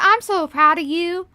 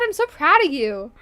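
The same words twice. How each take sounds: First: It is said in a put-on Southern accent. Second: It is said in her ordinary accent.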